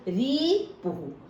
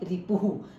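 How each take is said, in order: First: The final vowel is long. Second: The final vowel is short. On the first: The speaker calls it wrong. "यहाँ बड़े ऊ की मात्रा है" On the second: The speaker calls it right. "यहाँ छोटे ऊ की"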